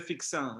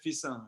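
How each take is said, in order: First: The middle consonant is pronounced as 'ks'. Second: The middle consonant is pronounced as 's'. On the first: This is how outsiders say the name. The speaker calls it wrong. "You don't say fixin" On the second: This is how locals say the name. The speaker calls it right. "You say fissin"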